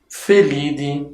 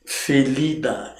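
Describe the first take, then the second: First: Felide with the ending said "dee"; pronúncia latina. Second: Felidae terminado em "dai"; final -dai como se escreve. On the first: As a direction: say Felide with no "ai" at the end. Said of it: "em latim a gente pronuncia D". (Felide com final "di", à latina) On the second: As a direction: pronunciar Felidae com ditongo aberto "ai" no fim. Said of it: "É Idai, mas em latim". (Felidae com final "dai", como na escrita) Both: Shown as a demonstration.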